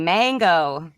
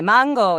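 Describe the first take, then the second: First: Mango is said with an American accent. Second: Mango is said with a Latin American accent.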